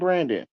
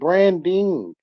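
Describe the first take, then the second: First: It is said in slang, ending like 'Brandon'. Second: It is said in standard speech, ending in 'ing'.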